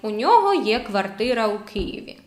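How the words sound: It is said with flat statement intonation. He has an apartment in Kyiv. "as a statement, not as a question"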